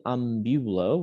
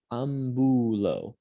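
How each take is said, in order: First: Am-BYU-lo, middle syllable stressed with a y-glide; wrong ambulo. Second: Slow ambulo with a pure "boo", no y-glide; careful Latin ambulo, plain oo in the middle; corrected ambulo. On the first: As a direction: say ambulo English-style as "am-BYOO-lo". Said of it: "we don't say ambulo". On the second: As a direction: draw out ambulo as "ahm-boo-lo". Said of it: "we say ambulo". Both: Shown as a demonstration.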